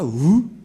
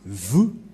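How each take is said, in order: First: The word begins with a W sound. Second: The word begins with a V sound. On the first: The speaker calls it wrong. "C'est pas" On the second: The speaker calls it right.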